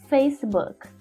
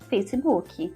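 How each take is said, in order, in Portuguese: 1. É falado com pronúncia inglesa. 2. É falado com pronúncia do português brasileiro. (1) "a pronúncia na língua inglesa é Facebook" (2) "Na língua portuguesa a gente fala Facebook"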